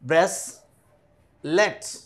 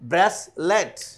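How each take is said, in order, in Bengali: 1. শব্দটি দুই ভাগে বলা হয়েছে। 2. শব্দটি এক টানে, মসৃণভাবে বলা হয়েছে।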